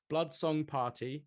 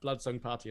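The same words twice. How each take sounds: First: The phrase is said slowly. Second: The phrase is said quickly. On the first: The speaker calls it right. "I'll say it slowly" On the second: The speaker calls it wrong. "that's a bit too quick almost"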